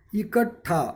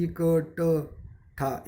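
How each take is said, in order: First: इकट्ठा with a clear aspirated ठ; careful pronunciation. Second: इकट्ठा drawn out very slowly, every syllable separate. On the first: Teacher modelling इकट्ठा for students. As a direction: spell out इकट्ठा sound by sound. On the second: Teacher slowly sounding out इकट्ठा. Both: Shown as a demonstration. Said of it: "इकट्ठा यानी जो आखिरी वाला शब्द है".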